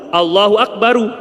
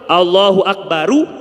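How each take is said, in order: First: The final r is followed by a u vowel. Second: The same.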